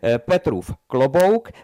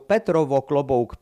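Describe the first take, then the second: First: The first word ends in an 'oof' sound. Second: The first word ends in an 'ovo' sound. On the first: This is the standard form. The speaker calls it right. "Ginge also so" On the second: The speaker comes from the Pilsen area. The speaker calls it wrong. "wenn jemand zu allen diesen Worten die Endsilbe ovo sagt"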